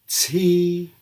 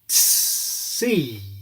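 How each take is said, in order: First: Only a tiny S follows the T. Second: A long, exaggerated S follows the T. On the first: "if we shrink that S down, we will get the affricated English T" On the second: "say it with an S after the T"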